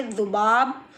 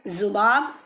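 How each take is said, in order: First: ज़ुबाब begun with "th" as in "this"; tongue at the teeth, "dhubaab" for ज़ुबाब; dental dh variant. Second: ज़ुबाब begun with z as in "zoo"; buzzing z variant. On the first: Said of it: "ऐसे भी पढ़िए". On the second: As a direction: buzz a clean z to start ज़ुबाब. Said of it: "दोनों आवाज़ें correct हैं". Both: Shown as a demonstration.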